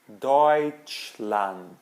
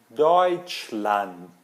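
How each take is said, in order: No difference in how they are said.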